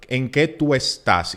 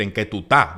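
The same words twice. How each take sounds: First: "en qué tú estás" with every syllable and S pronounced; pronunciación cuidada. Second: "estás" cut down to "tá"; pronunciación relajada. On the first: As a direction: articulate "estás" in full, as read from the page. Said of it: "pronunciando correctamente". (pronunciación cuidada, "estás" completo) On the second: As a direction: drop the first syllable and final S of "estás", saying "qué tú tá". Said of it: "y tú vas a decir". (pronunciación relajada, "estás" reducido a "tá") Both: Shown as a demonstration.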